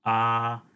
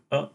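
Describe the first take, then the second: First: "a" held long, like aah; long vowel. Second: "a" as a brief, short vowel. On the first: Teacher illustrating Sanskrit vowel length, "a" said long. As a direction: stretch "a" into a long open vowel. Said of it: "long vowels like a". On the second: Teacher illustrating Sanskrit vowel length, "a" said short. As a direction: keep "a" very short, like uh. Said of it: "we have short and long vowels like". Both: Shown as a demonstration.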